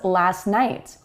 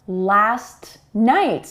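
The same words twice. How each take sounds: First: The T at the end of last is dropped. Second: The T at the end of last is pronounced.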